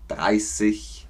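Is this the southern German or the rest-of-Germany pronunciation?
rest-of-Germany. It is said as in the rest of Germany.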